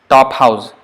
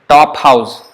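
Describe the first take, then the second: The two takes are said the same way.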